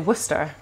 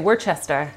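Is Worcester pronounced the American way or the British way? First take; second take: British; American. First: It is pronounced the British way. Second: It is pronounced the American way. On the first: The speaker calls it right. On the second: The speaker calls it wrong.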